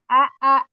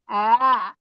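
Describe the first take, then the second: First: Both hamzas are pronounced fully and separately. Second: The second hamza is softened and glided over. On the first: The speaker calls it wrong. "bukan a a" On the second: The speaker calls it right. "tapi a. Ah, itu diayun, diayun ah, hamzah yang kedua"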